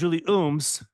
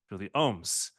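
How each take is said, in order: First: The surname has an 'oo' vowel. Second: The surname has an 'oh' vowel. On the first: The speaker calls it wrong. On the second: The speaker calls it right.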